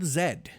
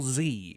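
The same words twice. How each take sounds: First: The letter is said as zed, non-American style. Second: The letter is said as zee, American style.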